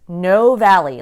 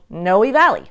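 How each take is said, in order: First: The first word is one syllable, rhyming with toe. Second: The first word is two syllables, ending in ee. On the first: The speaker calls it wrong. "like toe" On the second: The speaker calls it right. "You pronounce the E on the end"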